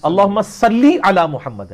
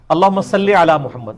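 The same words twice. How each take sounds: First: "صلی" said as "salli", a clear long i on the end; "صلی" carefully as "salli", slowly; "صلی" with a proper "-li" ending; correct pronunciation. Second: "صلی" said as "salle", a short open e on the end; "صلی" read wrongly as "salle"; "صلی" ending in "-le", not "-li"; wrong pronunciation. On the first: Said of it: "ہے". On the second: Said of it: "یہ غلط ہے". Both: Shown as a demonstration.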